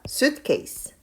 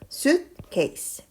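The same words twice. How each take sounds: First: It is said joined together, more quickly. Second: It is said in two separate parts. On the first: "연결해서 조금만 더 빠르게 읽어볼까요?" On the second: "이렇게 끊어서 한번 읽어보도록 할게요"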